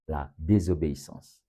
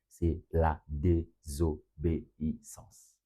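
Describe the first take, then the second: First: Said in the usual way. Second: "désobéissance" slowly split into separate syllables, softer. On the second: Real, not acted. Preacher revealing his third point to the congregation, "désobéissance" syllable by syllable. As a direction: spell out "désobéissance" syllable by syllable, low and measured.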